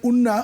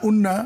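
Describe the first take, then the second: No difference in how they are said.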